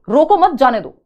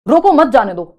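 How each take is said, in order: First: "रोको मत" grouped together, then "जाने दो"; pause after मत. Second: Loud "रोको", a stop, then "मत जाने दो"; full stop after रोको, meaning don't let go; pause after रोको. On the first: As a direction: break after मत, meaning let them go. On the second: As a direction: punch रोको, break, then run मत जाने दो together. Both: Shown as a demonstration. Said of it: "बोलने में आपका पता लगेगा".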